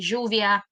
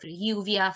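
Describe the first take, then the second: First: The double L has the Argentinian sh-like sound. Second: The double L has the usual non-Argentinian sound. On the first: "we say lluvia or chuvia" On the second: "instead of lluvia for rain"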